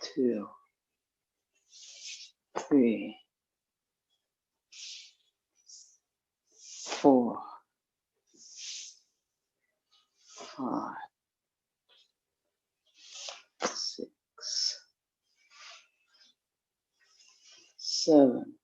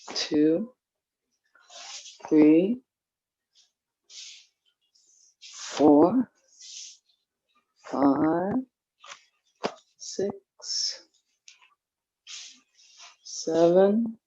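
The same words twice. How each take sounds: First: The numbers are counted more slowly. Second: The numbers are counted at a quicker pace.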